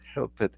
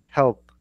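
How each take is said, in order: First: The ending is said as an extra syllable. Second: The ending adds no extra syllable. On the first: The speaker calls it wrong. "It's not help it" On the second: The speaker calls it right. "you don't need to pronounce ed"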